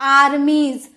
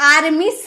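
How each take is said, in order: First: The final sound is a buzzing z. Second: The final sound is a hissing s. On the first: The speaker calls it right. "ज में sound निकलेगा" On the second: The speaker calls it wrong. "आर्मिस नहीं"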